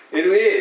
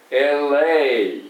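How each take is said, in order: First: "エルエー" as flat separate Japanese syllables; each mora even, e-ru-e-e; 日本語読み; katakana reading. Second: "エルエー" slowly, linked as "el-ei", louder; 英語風; English L.A. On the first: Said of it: "じゃなくて". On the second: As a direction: glide "エルエー" into two English syllables. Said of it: "っていう感じでございますね". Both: Shown as a demonstration.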